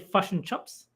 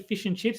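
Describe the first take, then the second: First: It is said in an imitated Kiwi accent. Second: It is said in the speaker's Australian accent.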